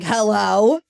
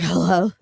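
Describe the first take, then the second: First: It sounds curt and annoyed, in a bad mood. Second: It sounds groggy and disheveled, like just waking.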